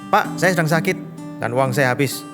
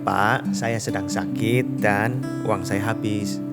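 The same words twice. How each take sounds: First: It is read in a harsh, rude tone. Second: It is read in a soft, gentle tone. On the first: The child seems disrespectful and demanding. "teman yang terkenal kasar ini membacakan teksnya begini" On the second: The child is politely asking for help. "Teman ini terkenal sebagai orang yang hatinya lembut"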